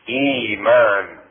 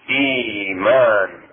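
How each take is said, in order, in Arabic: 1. تُمدّ الحركةُ الأولى مدًّا طويلًا لمدة حركتين. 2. تُمدّ الحركةُ الأولى مدًّا طويلًا لمدة حركتين.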